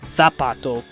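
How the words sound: The z is pronounced like th.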